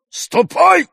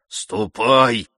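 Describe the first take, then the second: First: Loud yell leaping very high; shouted order. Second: Said in the usual way. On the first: A narrator's reading. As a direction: drive her away with a sudden high shout. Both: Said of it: "закричал он".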